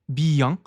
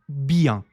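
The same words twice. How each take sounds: Both takes have the same delivery.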